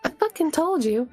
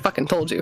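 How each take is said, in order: First: It is said in Nellie's voice. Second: It is said in the speaker's own voice.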